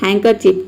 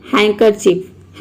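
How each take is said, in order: First: Said in the usual way. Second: Slow demo word. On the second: Shown as a demonstration.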